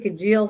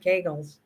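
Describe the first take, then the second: First: The middle consonant sounds like a soft j. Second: The middle consonant is a hard g. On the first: The speaker calls it wrong. "I say Kajils" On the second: The speaker calls it right. "she says Kegels"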